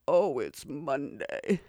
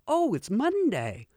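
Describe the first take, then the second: First: It is said in a gloomy, dejected tone. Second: It is said in a cheerful, upbeat tone. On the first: Monday is dreaded. "Our attitude wears hard on Monday" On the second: Monday is welcome. "we don't say"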